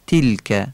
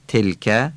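First: تلکه with a clear i, "tilkæ", falling; eloquent kasra. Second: تلکه with a short e, "telkæ", rising; plain Persian kasra. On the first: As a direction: say تلکه with Arabic "i" in the first syllable. (تلکه با کسرهٔ فصیح عربی، مثل ای) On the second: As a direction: say تلکه with Persian "e" in the first syllable. (تلکه با کسرهٔ فارسی) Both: Shown as a demonstration. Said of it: "کسرهٔ تلکه فصیح گفته بشه".

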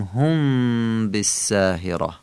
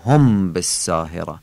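First: هم بالساهرة slowly, with a loose, held hum on the م; soft nasal mim. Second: هم بالساهرة with a firm, short "homb" and Persian vowels; wrong, unsoftened mim. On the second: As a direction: say هم بالساهرة Persian-style as "hom bessahera". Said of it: "نمیگیم هم بالساهرة". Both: Shown as a demonstration.

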